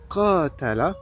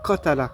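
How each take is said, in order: First: The first vowel is lengthened. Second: The first vowel is short. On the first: To fight each other. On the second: To kill someone.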